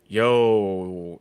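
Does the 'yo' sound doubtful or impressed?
doubtful. It sounds doubtful and unimpressed. Something is questionable or not good. "and be like, mm, you know"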